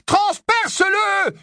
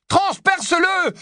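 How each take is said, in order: First: Even higher, slower "Transperce-le" screamed; louder repeat shout. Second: High urgent "transperce-le" yelled; slowed frantic yell of transperce-le; shouted command. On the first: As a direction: beg him, more desperate now. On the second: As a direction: order him to strike. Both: Acted. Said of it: "hurla Harry".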